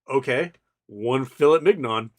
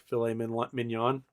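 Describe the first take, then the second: First: "filet mignon" said as "fill-it mig-non", hard t and hard g; "filet mignon" read out as spelled, fill-it mig-non; clueless kid saying "filet mignon" the English way; mispronounced. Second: "mignon" said as "min-yon", soft gn, rising like a correction; "filet mignon" said the French way, fee-lay meen-yon, as a question. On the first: Teen mispronouncing unknown French dish. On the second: Waiter correcting the pronunciation. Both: Retold or imitated.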